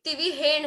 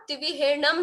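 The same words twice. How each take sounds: First: तिविहेण ending on n, without am; correct form. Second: तिविहेणम with an added final am; old-book form. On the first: Teacher giving the reading to use now, pronunciation contrast. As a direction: stop तिविहेण on the ण. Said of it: "तिविहेण बोलना है". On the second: Teacher citing the old book's reading, pronunciation contrast. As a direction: end तिविहेणम on a closed m. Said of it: "यहाँ पर ना तिविहेणम होता है". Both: Shown as a demonstration.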